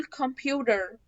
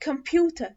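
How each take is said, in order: First: American "computer" as "kum-pyoo-der"; American accent. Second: British "computer" as "kum-pyoo-tuh"; British accent. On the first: Teacher contrasting American with British, American accent. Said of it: "ده كده امريكان". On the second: Teacher showing how British say it, British accent. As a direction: say computer British, clear T, silent R. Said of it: "البريتش بينطقوه ازاي؟". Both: Shown as a demonstration.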